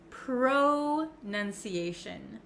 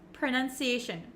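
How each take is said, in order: First: The first syllable has a full 'oh' vowel. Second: The first syllable has a short 'uh' vowel. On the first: The speaker calls it wrong. "It looks like you could pronounce it pro" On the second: The speaker calls it right. "it's actually kind of pronounced like a U, like an uh, uh sound. Pr, pr. And it's very short"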